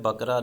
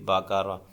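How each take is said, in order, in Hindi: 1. q और r के बीच कोई स्वर नहीं है। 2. हर व्यंजन के बाद एक छोटी 'a' ध्वनि आती है। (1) "ये लफ्ज़ जो है बकरा नहीं होता" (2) "बा पे भी ज़बर है, काफ पे भी और रा पे भी"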